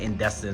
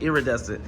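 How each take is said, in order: First: The word sounds like 'indecent'. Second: The word sounds like 'iridescent'. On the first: The speaker calls it wrong. "I think I was saying indecent or something like that" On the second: The speaker calls it right. "and it's pronounced iridescent"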